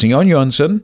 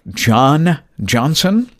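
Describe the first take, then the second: First: The name begins with a soft Y sound. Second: The name begins with an English J sound. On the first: "they pronounce that J as almost a silent Y" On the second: "It looks like John Johnson"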